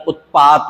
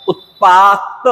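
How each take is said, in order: First: Said in the usual way. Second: उत्पात drawn out, stressed on the end; halant ending. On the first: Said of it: "उत्पात होता है". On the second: Shown as a demonstration. Teacher recapping the mistake, उत्पात stressed with halant. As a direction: stretch उत्पात onto a cut-off t. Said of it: "हलंत वाला नहीं".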